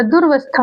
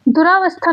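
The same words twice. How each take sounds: First: "दुर्वस्था" as dur-vas-thaa; correct short form. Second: "दुरावस्था" as du-raa-vas-thaa; full "raa" syllable in "दुरावस्था"; wrong long vowel. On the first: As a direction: say "दुर्वस्था" with no long aa after the r. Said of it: "दुर्वस्था होता है". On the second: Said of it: "दुरावस्था नहीं होता". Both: Shown as a demonstration.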